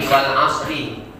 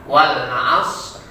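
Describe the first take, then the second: First: The last word ends with a short vowel. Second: The last word ends on a bare consonant.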